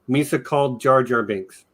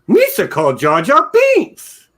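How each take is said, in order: First: It is said in his normal voice. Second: It is said in a Jar Jar voice.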